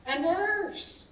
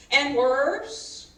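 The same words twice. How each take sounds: First: "worse" lifted higher, lightly mock-dramatic; "worse" said higher, half-teasing. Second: Louder on "worse", rising at the end; "worse" pushed out louder, rising; emphatic worse. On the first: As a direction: top the last one with a higher "worse". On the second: Acted. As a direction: lean hard on "worse". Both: Building the warning.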